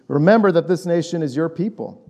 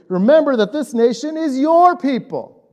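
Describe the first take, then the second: First: It is read in a flat, even tone. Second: It is read with frustrated, emotional intonation.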